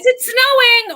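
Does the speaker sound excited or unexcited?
excited. It is said in an excited, happy tone. The speaker is glad about the snow. "are you excited for the snow"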